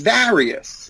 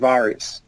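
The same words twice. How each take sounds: First: It rhymes with Darius. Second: It does not rhyme with Darius. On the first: The speaker calls it right. "is the same pronunciation as Darius" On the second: The speaker calls it wrong. "Most of my clients do not pronounce the word Varius correctly. They say Varius. Like Varus"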